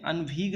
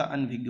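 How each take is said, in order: First: अनभिग, said with a hard g ending; अनभिग with no ज्ञ sound; wrong spelling read out. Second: अनभिज्ञ, ending on a clear ज्ञ gy sound; अनभिज्ञ pronounced with gya; correct form. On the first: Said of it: "अनभिग नहीं होता". (गलत उच्चारण अनभिग) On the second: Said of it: "अनभिज्ञ होता है". (सही उच्चारण अनभिज्ञ) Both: Shown as a demonstration.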